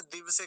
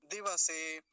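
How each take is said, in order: First: दिवसे with the व clipped to a half sound; दिवसे as two syllables, "div-se"; mispronounced दिवसे. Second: दिवसे with a full व; दिवसे as three syllables, "di-va-se"; correct दिवसे. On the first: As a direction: run the व of दिवसे straight into से. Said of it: "यहाँ भी गलत उच्चारण हो जाता है". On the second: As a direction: give व its own vowel in दिवसे. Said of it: "वकार आधा नहीं होना चाहिए". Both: Shown as a demonstration.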